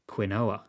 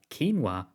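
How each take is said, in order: First: It is read out letter by letter as spelled. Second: It is said the usual, accepted way.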